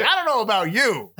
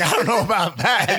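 First: High doubtful line; quoting Kid. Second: High, loud laughing line; quoting Kid. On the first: Friend doubting the pal in Jeep, high mock doubt. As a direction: say it way up, unsure of him. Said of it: "He's like". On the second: Friend reacting in the Jeep, high laughing doubt. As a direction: say it higher through a laugh. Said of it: "he's like". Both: Retold or imitated.

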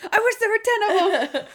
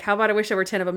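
First: Very high, squealed code word; mock freak-out. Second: Said in the usual way. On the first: Randy blurts the code word while being held, imitated high panic. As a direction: imitate a panicked cry, pitched way up. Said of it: "he starts freaking out". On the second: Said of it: "And Monk's like".

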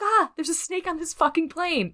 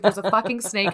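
First: Much higher, hammed-up action-movie yell; joke movie quote. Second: Said in the usual way. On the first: A deliberately wrong take on the wife's reaction, hammed up. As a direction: ham up the famous snake-on-a-plane line. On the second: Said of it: "No, that's not what she said".

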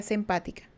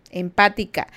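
First: Said in the usual way. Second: Empática said louder, firm falling close; stressed Empática. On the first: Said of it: "Empática, no antipática". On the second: Shown as a demonstration. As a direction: lean on Empática, not antipática. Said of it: "no antipática".

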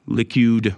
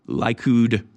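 First: Likud with first syllable like "lick"; second pronunciation attempt. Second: Likud with first syllable like "lie"; first pronunciation attempt. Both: Real, not acted. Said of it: "however you pronounce it".

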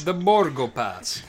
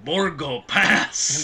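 First: Slow, put-on "The Borgo Pass"; ominous echo. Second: Very slow, looming "Borgo Pass"; ominous Borgo Pass. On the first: Cohost echoing the creepy line, slow ominous voice. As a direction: echo it spookily. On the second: Retold or imitated. Host quoting the creepy movie line, slow and ominous. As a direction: draw it out like a spooky warning. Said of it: "the guy saying".

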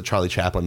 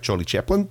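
First: Said in the usual way. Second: Imitated Kiwi "Chaplin", first vowel raised towards "Cheplin"; mock New Zealand vowels; New Zealand accent. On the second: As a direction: say "Charlie Chaplin" like a New Zealander, rising at the end. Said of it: "who was from, uh, New Zealand".

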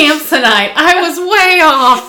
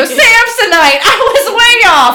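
First: Higher, slow quote voice; movie quote voice. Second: Movie quote voice. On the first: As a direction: drawl it like the movie. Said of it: "I still use that quote". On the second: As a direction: ham it up like the movie. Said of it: "I just go". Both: Retold or imitated.

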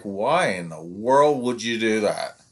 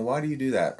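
First: Slow, indignant mock challenge; accusing parent. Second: Mild, open questioning; curious question. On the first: Parent confronting the coach, slow and indignant. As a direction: drag it out as if calling the coach out. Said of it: "when they come at you like". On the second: Retold or imitated. Parent asking the coach to learn, gently curious. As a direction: ask it just wanting to learn. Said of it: "they're wanting to learn".

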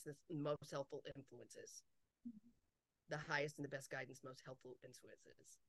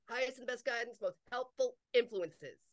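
First: Low, very soft murmured mantra; quiet, trailing invocation; hushed recitation. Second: Full-voiced, measured delivery of "helpful influences"; firm recitation. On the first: Repeating a habitual request to guides. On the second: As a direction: restate it clearly, leaning on "helpful". Repeats the same request, instructing listener. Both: Shown as a demonstration.

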